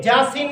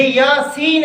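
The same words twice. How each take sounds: First: "جاسین" with j for y; wrong-example j opening "جاسین"; mispronunciation. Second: Slow "یاسین" with y; careful y glide opening "یاسین"; correct pronunciation. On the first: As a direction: toss off "Jaaseen" for "جاسین". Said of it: "جاسین نہیں ہے". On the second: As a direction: stretch "Yaa-seen" for "یاسین". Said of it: "یہ یاسین ہے". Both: Shown as a demonstration.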